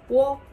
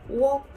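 First: It starts with a w sound before o. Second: The same.

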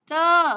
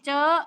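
First: The word is said on a falling tone. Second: The word is said on a high tone. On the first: "ไม่โทร" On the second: "ไม่ตี"

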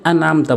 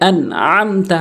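First: The throaty ain sound is left out. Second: The throaty ain sound is clearly pronounced. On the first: The speaker calls it wrong. "এখানে আনআমতা বলে অনেকেই" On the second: The speaker calls it right. "এখানে আইনের উচ্চারণ করতে হবে"

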